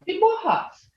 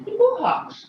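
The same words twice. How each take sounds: First: "Chibuhas" high then dropping; high falling tone. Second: "Chibuhas" said high with a falling tone. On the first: Teacher repeating the tonal word for students, high falling. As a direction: pitch "Chibuhas" up and drop it. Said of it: "That's even got a tone". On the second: Teacher showing the class a tone, high falling word. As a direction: start "Chibuhas" high and let it fall. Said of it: "that's even got a tone". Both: Shown as a demonstration.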